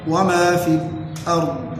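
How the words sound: A brief silent break comes right before 'al-ard'. "وبالسكت"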